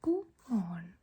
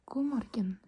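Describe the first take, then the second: First: "God morgen" as goo mawn; Oslo dialect. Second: "God morgen" as goo mor-gen, G sounded; as spelled. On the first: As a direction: swallow the G, "morgen" becoming one long syllable in "God morgen". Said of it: "But in the Oslo dialect". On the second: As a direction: say "morgen" in "God morgen" with two full syllables. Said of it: "because that's how it's spelled". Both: Shown as a demonstration.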